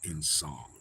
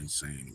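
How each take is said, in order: First: The second syllable sounds like 'song'. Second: The second syllable sounds like 'sane'. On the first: The speaker calls it right. "it's in song" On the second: The speaker calls it wrong. "instead of insane or insane or whatever"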